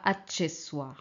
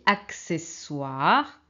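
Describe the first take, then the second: First: The double C is not said as 'ks'. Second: The double C is said as 'ks'. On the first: The speaker calls it wrong. "ce n'est pas accessoire" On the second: The speaker calls it right.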